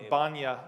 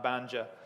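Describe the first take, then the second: First: The j is said like a y sound. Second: The j is said like English j. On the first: The speaker calls it right. "The J in Bosnia is pronounced like a ya" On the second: The speaker calls it wrong. "Not Banja"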